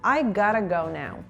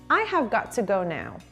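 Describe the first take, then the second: First: 'Have' is dropped and 'got to' becomes gotta. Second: Every word is said in full, unreduced.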